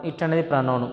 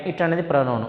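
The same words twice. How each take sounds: The two takes are said the same way.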